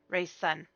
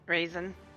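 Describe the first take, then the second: First: It sounds like 'ray' followed by 'sun'. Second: It sounds like the word raisin, ending in 'zin'. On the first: The speaker calls it right. "R E A would be Ray Sun" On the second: The speaker calls it wrong. "I'm half certain I am saying that wrong"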